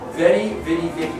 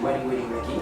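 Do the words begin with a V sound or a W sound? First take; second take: V; W. First: Each word begins with a V sound. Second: Each word begins with a W sound.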